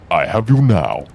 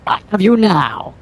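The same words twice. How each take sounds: First: It is said in a menacing voice. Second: It is said in a less menacing voice. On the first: The speaker calls it right. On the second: The speaker calls it wrong.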